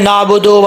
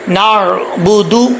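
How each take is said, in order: First: The final vowel sounds like 'oh'. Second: The final vowel sounds like 'oo'. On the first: The speaker calls it wrong. "लोग कैसे पढ़ते हैं" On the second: The speaker calls it right. "दाल पेश दू होता है"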